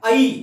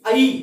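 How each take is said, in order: Both takes have the same delivery.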